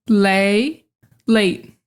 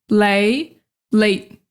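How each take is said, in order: The two takes are said the same way.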